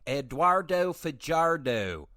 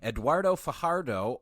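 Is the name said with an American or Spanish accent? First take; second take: American; Spanish. First: The name is said with a Midwestern American accent. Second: The name is said with a Spanish-style accent.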